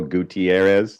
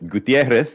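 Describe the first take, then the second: First: The name is said with an added extra syllable. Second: The name is said with a Spanish pronunciation. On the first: "some people just throw in that extra syllable" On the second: "if you're saying it in Spanish"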